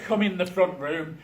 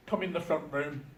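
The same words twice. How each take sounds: First: Said in the usual way. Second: A light hint of his dad's Jamaican accent, a bit quieter; just a touch of Jamaican in the Jamaican accent. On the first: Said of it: "I'm not doing the Jamaican accent". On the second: Son quoting his Jamaican dad, faint Jamaican accent. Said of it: "Obviously, I'm not doing the Jamaican accent".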